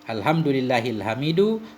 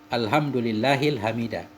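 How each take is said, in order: First: The last word ends in a u vowel. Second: The last word ends in an a vowel. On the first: The word is the predicate of an unstated 'he'. "hamid ini kita rafa'kan mubtada mahdhuf" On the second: The word is the object of an unstated 'I praise'. "kita buang amelnya fi'il"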